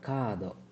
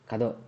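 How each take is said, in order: First: The first vowel is drawn out long. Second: The first vowel is short and clipped. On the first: The speaker calls it right. "ಅವಾಗ ಎಳಿಬೇಕು" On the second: The speaker calls it wrong. "ಕದೋ ಅಲ್ಲ"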